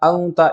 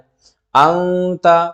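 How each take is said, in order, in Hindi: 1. यह शब्द जल्दी और कटा हुआ बोला जाता है। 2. नासिका वाली ध्वनि थोड़ी खींचकर बोली जाती है।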